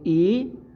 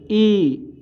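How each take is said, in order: First: The vowel is short and light. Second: The vowel is long and stressed. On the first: "छोटी ई को हम लोग ऐसे पढ़ेंगे" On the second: "थोड़ा सा जोर लगाकर पढ़ेंगे, थोड़ा खींचेंगे"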